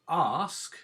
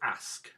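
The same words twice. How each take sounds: First: The vowel is a long 'ar' sound. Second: The vowel is a short flat 'a' sound. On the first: The speaker calls it right. "it makes the R sound, not an A sound" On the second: The speaker calls it wrong. "We don't go ask"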